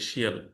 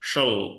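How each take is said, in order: First: The ending is said as two syllables, shee-al. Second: The ending is said as one reduced syllable, shul. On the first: The speaker calls it wrong. "এভাবে বলে শিয়াল" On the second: The speaker calls it right. "এটা হচ্ছে শল"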